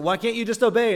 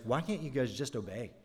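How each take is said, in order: First: Much higher, louder exasperated cry; mock scolding a Bible figure; frustrated outburst. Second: Soft exasperated mutter to Israel; quietly fed-up aside, much softer; annoyed reader muttering. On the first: Reader yelling at an Old Testament figure, exasperated. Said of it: "you get really frustrated". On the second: Retold or imitated. Reader of Exodus grumbling at Israel, soft and fed up. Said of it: "you're just like".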